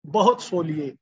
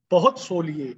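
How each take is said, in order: Both takes have the same delivery.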